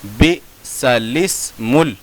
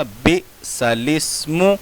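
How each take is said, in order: First: बिसलिस्मुल in slow separated syllables, ending on ल; slow teaching readout of बिसलिस्मुल; syllable-by-syllable reading. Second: बिसलिस्मु in slow separated syllables, ending on मु; slow teaching readout of बिसलिस्मु; correct recitation. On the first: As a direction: break up बिसलिस्मुल evenly. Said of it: "अलिफ लिखा हुआ है". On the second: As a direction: pause between syllables of बिसलिस्मु. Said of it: "कैसे पढ़ा जाएगा?". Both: Shown as a demonstration.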